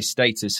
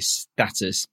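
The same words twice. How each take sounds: First: It is said with a British pronunciation. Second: It is said with an American pronunciation.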